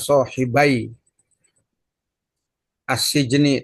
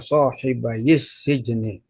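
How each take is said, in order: First: The first word ends without a linking vowel. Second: A linking vowel joins the first word to the second. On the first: The speaker calls it wrong. "dibuang nunnya itu" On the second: The speaker calls it right. "yang sukun itu harus dikasih harokat"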